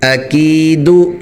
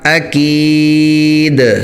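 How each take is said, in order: First: The word keeps its full ending with final vowel. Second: The vowel is lengthened and it ends on bouncing d. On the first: The reciter keeps going without stopping. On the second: The reciter stops on this word.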